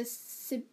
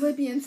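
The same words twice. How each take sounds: First: Sibians said with an S, as SIB-ee-ans; wrong name. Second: Libyans with a clear L, LIB-ee-ans; corrected name. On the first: Retelling the movie, she misnames the Libyans as Sibians. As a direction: slip into saying Sibians instead of Libyans. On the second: Corrected by her friend, she says Libyans right. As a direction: fix it, saying Libyans properly. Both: Real, not acted. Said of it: "I said Sibian".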